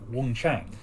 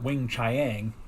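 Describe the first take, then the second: First: The second syllable is said like 'chahng'. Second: The second syllable is said like 'chee-ang'. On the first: The speaker calls it right. "It would be Wong Chang" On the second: The speaker calls it wrong. "It's not Wing Chiang"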